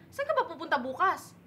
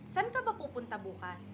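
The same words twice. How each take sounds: First: It has a Bisaya intonation, sounding angry. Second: It has a plain Tagalog intonation.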